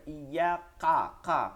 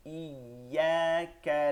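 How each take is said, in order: First: Wrong heavy back-of-throat কা, like qaf; warning demo of কা turned into a qaf; kaf hardened to qaf. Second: কা in ইয়াকা with a soft, light kaf; slow drawn-out ইয়াকা, keeping the k of কা gentle; light k in কা, not a throaty q. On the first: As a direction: punch কা hard and thick from far back. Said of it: "কফ না হয়ে যায়". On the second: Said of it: "নরম হবে". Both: Shown as a demonstration.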